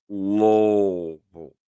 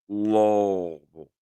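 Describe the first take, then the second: No difference in how they are said.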